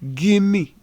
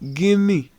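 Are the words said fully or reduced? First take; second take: reduced; reduced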